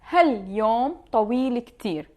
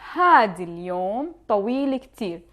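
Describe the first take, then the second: First: The word for 'this' is shortened to a prefix. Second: The word for 'this' is said in full. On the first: "with using هل" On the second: "Or you could say"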